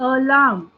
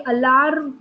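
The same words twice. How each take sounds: First: अलार्म said the right way, two clear beats; correct pronunciation. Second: अलार्म said the wrong way, syllables run together; wrong pronunciation. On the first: Teacher giving students the correct अलार्म after the wrong one. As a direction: model the proper अलार्म, firm and separated. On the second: Teacher showing students the wrong way to say अलार्म. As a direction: show the mistaken अलार्म the class should avoid. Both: Shown as a demonstration. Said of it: "तो ये अलार्म नहीं है".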